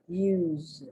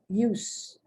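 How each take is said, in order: First: The final consonant is a buzzing z sound. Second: The final consonant is a hissing s sound. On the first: It is the verb. "the S but it's pronounced like a Z" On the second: It is the noun. "the S and it's pronounced like an S"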